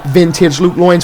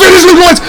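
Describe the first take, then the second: First: Said in the usual way. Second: High, loud hype call; shouting the signature move; excited shout. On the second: Acted. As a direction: sell the big move, full voice. Commentator hyped by big move.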